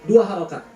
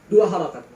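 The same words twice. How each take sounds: The two takes are said the same way.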